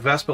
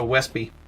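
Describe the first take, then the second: First: It starts with a V sound. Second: It starts with a W sound. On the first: The speaker calls it right. "like it's supposed to be" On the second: The speaker calls it wrong. "they call it a Wespy"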